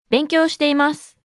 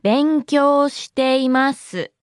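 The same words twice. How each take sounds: First: Said in the usual way. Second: Slow, syllable-by-syllable demonstration; slow model. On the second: Shown as a demonstration. Teacher repeats the response for learners, slow and measured. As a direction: draw out every syllable for learners.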